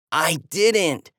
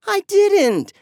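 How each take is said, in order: First: Said in the usual way. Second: High, loud protest on didn't; defensive. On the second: A narrator's reading. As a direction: snap back a denial. Kids blame each other.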